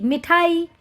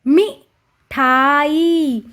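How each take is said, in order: First: Said in the usual way. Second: "मिठाई" as short मि, then long ठा-ई; "मिठाई" very slow, paused after मि; syllable by syllable. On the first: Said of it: "इसका हम उच्चारण करेंगे". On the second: Shown as a demonstration. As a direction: draw out the end of "मिठाई". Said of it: "इसी तरह से हम अब पढ़ेंगे".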